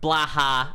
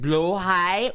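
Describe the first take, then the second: First: The word ends with a 'ha' sound. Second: The word ends with a 'high' sound. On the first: "Blaha sounds like you're laughing" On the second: "That's how it's pronounced"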